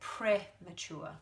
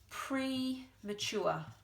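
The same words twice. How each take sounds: First: It is said in the everyday Australian way. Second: It is said as spelled, with a full prefix. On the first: "we actually say in Australian English, we say premature" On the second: "but it's spelt the same"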